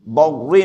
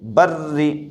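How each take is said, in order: First: The R sound is heavy and thick. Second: The R sound is light and thin. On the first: The speaker calls it wrong. "बर्री नहीं पढ़ेंगे" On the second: The speaker calls it right. "बल्कि बर्री"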